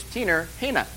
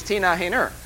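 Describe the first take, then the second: First: "Tina Hayner" with an r on Tina and none on Hayner, "Tinar Hayna"; northern pronunciation. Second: "Tina Hayner" with no r on Tina and an r on Hayner; plain southern "Tina Hayner", ending on "-ner"; southern pronunciation. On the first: Mock-teaching northerners how they say "Tina Hayner". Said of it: "her northern name is". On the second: Setting the southern "Tina Hayner" against the northern one. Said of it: "her southern name is". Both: Shown as a demonstration.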